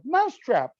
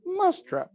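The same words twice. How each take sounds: First: Loud, high English-accent shout of the word; yelled in an English accent. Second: High, exaggerated English accent on "Mousetrap". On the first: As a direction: shout it like a British game ad. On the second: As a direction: say "Mousetrap" like a posh English announcer. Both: Shown as a demonstration. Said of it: "in an English accent".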